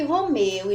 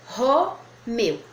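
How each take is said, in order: First: Said in the usual way. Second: "Romeu" as ro, pause, meu; split into syllables. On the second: Shown as a demonstration. Teacher showing the first syllable's place, "Romeu" split ro, meu. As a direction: break "Romeu" in two, leaning on the first syllable. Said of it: "A primeira sílaba ficou aqui".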